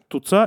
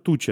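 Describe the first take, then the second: First: The middle consonant is a hard ts sound. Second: The middle consonant is a ch sound. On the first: This is the local dialect form. "У нее твердое цоканье" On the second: This is the standard form. "Туца – это туча"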